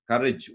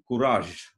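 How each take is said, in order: First: It is said the English way, ending in j. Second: It is said the French way, ending in zh.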